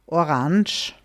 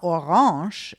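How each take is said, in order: First: The word is said without French-style sounds. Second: The word is said with French-style sounds. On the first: "Maybe you could also hear something like orange" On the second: "orange is actually technically the French way of saying it"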